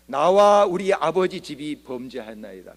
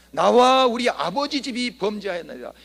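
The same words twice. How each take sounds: First: Slow, louder, earnest confession. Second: Higher, louder, fervent cry of confession. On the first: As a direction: pray it slowly and heavily, with full weight. Nehemiah's prayer quoted. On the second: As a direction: lift the pitch and cry it out to God. Nehemiah's prayer quoted again. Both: Acted.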